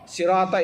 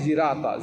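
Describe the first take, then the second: First: The word begins with an s sound. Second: The word begins with a z sound. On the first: This is the usual reading. "sirata itu pakai zirata" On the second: This is a variant reading. "pakai zirata"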